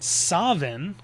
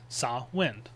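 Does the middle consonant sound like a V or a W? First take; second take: V; W. First: The middle consonant sounds like a V. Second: The middle consonant sounds like a W. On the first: This is the Scottish form. "with more of a V sound instead of a W" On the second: This is the Irish form. "Gaelic makes more of a W sound"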